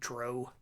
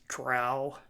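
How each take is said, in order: First: The vowel rhymes with 'go'. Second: The vowel rhymes with 'cow'. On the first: This is the pronunciation long used among friends. The speaker calls it wrong. "we always pronounced it Dro" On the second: This is the standard pronunciation. The speaker calls it right. "the correct pronunciation is Drow"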